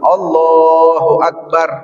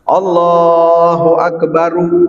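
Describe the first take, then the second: First: The final r ends plainly with no vowel. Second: A short vowel is sounded after the final r. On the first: The speaker calls it right. "disukunin, dijazmin, dimatiin" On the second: The speaker calls it wrong. "itu namanya dihidupin, enggak"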